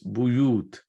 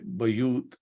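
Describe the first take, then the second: First: The first vowel is a 'u' sound. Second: The first vowel is an 'a' sound. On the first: The speaker calls it right. "There is dhamma on ba. It's buyut" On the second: The speaker calls it wrong. "make sure you don't say bayut"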